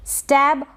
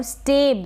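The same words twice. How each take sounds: First: स्टैब with open "ae", as in "stab"; contrasted pronunciation. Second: स्टेब with long "ay", like "stabe"; contrasted pronunciation. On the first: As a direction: say स्टैब with short open vowel. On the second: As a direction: say स्टेब with closed e vowel. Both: Shown as a demonstration. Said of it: "दोनों के उच्चारण में फ़र्क".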